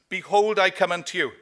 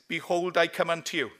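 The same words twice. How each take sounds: First: It is shouted in a booming voice. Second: It is said at a normal volume.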